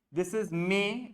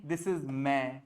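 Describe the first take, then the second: First: May with a gliding English ay; This is May, May with a diphthong; English May vowel. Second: May said flat like Hindi मैं; May with one open e, no glide; Hindi mein vowel. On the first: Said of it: "It's very simple". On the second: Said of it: "The Hindi wala May". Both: Shown as a demonstration.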